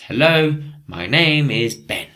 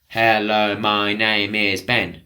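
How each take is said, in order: First: Said with a natural flowing rhythm. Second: Said evenly, without a natural rhythm. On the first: The speaker calls it right. "it's got a rhythm to it" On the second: The speaker calls it wrong. "It's not"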